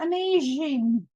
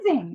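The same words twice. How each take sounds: First: The word is pronounced in an unusual way. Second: The word is pronounced the ordinary way. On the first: "not amazing" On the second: "like a normal person pronounces it"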